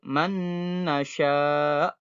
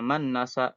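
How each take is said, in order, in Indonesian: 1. Bunyi sengau ditahan dulu sebelum dilanjutkan. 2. Bunyi sengau diucapkan terburu-buru dan dipotong pendek. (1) "Tahan dulu" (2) "jangan berburu-buru"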